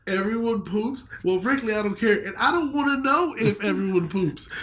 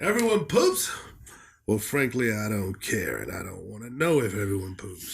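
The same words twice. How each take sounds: First: Higher-pitched, incredulous imitation of the reviewer; hammed-up huffy quote, pitched up throughout; mocking re-quote. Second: Put-on questioning opening, then low dismissive old-man grumble; haughty eighty-year-old reviewer; put-on elderly reviewer voice. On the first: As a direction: parody his indignant refusal to know. Re-quotes reviewer to mock his claim. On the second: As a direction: start incredulous, drop low and measured like an offended old critic. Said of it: "Is this guy like a eighty-year-old".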